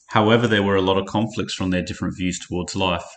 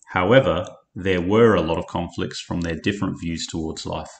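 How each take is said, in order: First: There is no pause after however. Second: There is a brief pause after however.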